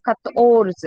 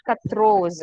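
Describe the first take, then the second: First: "Kators" with t before r, the r near the end; correct quatorze. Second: "Katros" with the r moved before the o; wrong quatorze. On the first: Teacher correcting a student's quatorze. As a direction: stress the -tors ending of "Kators". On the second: Teacher showing a student's mistake. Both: Shown as a demonstration. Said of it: "not Katros".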